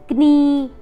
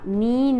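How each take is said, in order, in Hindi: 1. यह शब्द K ध्वनि से शुरू होता है। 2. यह शब्द N ध्वनि से शुरू होता है। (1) "नहीं बोला" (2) "बोला है"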